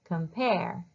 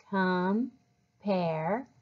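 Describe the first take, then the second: First: Said in the usual way. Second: "Compare" as "com", pause, "pare"; syllable by syllable. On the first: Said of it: "then blend them together like this". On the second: Shown as a demonstration. Teacher leads readers through challenge words, syllable by syllable. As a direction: split "Compare" into two drawn-out syllables. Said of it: "read them by syllables first".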